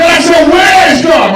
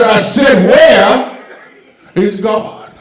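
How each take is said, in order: First: Very high, loud, slow shout; pastor yelling. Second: Loud, high shout of the question; pastor shouting. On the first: Pastor roars at terrified little brother, full shout. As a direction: stretch out a booming yell. Pastor yells question again. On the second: Pastor yells at little brother, booming shout. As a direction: bellow it like a furious preacher. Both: Retold or imitated.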